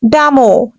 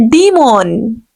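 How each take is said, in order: First: Damo said "dam-oh"; wrong demon. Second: Demon said "dee-mon" with a long e; correct demon. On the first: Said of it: "There is no word like damo". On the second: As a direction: stretch the first e in demon. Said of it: "Actual pronunciation will be". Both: Shown as a demonstration.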